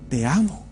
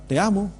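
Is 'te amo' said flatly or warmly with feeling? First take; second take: warm; flat. First: It is said warmly, with strong feeling. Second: It is said plainly, without much feeling. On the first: The words convey deep love. The speaker calls it right. "O puedo mostrarle más amor, más sentimiento y decirle" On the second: The words are said without conveying real love. The speaker calls it wrong. "Yo puedo decirle a mi esposa"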